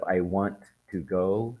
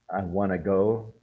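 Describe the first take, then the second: First: 'Want to' is said in full. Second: 'Want to' is reduced to 'wanna'. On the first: "instead of I want to go" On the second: "We say I want to go instead of"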